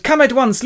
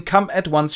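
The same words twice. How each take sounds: First: Very high, loud urgent plea; worried. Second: Moderately raised, contained urgency; concerned doctor. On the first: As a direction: summon help in hammed-up panic. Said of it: "Arthur is worried and goes". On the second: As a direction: summon a colleague with mild concern. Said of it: "takes a look at her and goes". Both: Acted.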